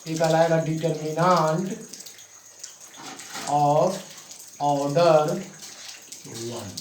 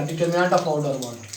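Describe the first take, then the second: First: Determinant, of, order, one each set apart by long pauses; dictation pauses. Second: Determinant of order one said slowly and evenly, word by word; slow clear term. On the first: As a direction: dictate the term word by word so they can write it. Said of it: "क्या कहलाएगा बाबू". (रुक-रुक कर लिखवाना) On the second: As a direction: spell out the term calmly for the class. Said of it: "क्या कहलाएगा". (धीमे, साफ़ बोला गया शब्द) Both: Shown as a demonstration.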